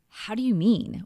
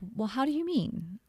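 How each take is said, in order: First: The speaker sounds defensive and upset. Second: The speaker sounds curious and open.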